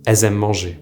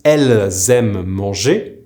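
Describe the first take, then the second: First: 'elles aiment manger' as 'è-z-aiment', no L; spoken liaison form. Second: 'elles aiment manger' as 'elle-z-aiment', L and Z both sounded; careful full form. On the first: Teacher showing how it's pronounced, elles aiment manger as è-z-aiment. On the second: Teacher giving the women's form, elles aiment manger fully articulated. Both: Shown as a demonstration. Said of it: "but it's pronounced".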